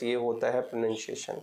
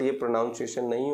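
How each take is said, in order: First: प्रोनंसिएशन said pro-nun-see-ay-shun, no "noun"; correct pronunciation. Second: प्रोनाउंसिएशन said pro-NOUN-see-ay-shun, the common mistake; wrong pronunciation. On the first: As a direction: model the right way: प्रोनंसिएशन with a plain "nun". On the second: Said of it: "ये प्रोनाउंसिएशन नहीं होता है". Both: Shown as a demonstration.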